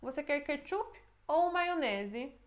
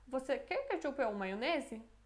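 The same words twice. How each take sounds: First: Intonation of a question offering a choice between two. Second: Intonation of an open yes-or-no question. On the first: The listener must pick one of the two options. "Aí a gente escolhe um dos dois" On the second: The listener may choose either, both or neither. "a pessoa pode escolher qualquer uma das opções, ou todas, ou nenhuma"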